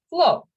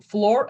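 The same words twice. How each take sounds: First: "flow" for floor, ending on the vowel; non-rhotic, R dropped. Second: "floor" with the final R sounded; rhotic R. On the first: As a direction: say "flow" with no R at the end. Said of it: "in non-rhotical, you pronounce both". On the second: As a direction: curl into a clear R at the end of "floor". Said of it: "these two words differently". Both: Shown as a demonstration.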